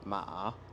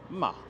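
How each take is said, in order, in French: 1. Le ton descend puis remonte. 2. Le ton descend, du haut vers le bas. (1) "le ton qui descend puis qui remonte" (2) "celui qui est du haut vers le bas"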